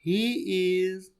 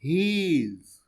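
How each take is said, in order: First: Both words are said in full. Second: The words are merged into one short syllable. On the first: "Instead of saying he is" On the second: "we can say he is"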